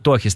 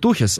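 First: The first vowel is an 'o' sound. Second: The first vowel is a 'u' sound. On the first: The speaker calls it right. "говорит Тохис, таки да" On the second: The speaker calls it wrong. "я говорю Тухис, а меня Кэп поправил"

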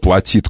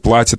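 First: The stress is on the second syllable. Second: The stress is on the first syllable. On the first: This is the older accepted stress. "было" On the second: This is the newer stress becoming the norm. "На корень постепенно сползает ударение"

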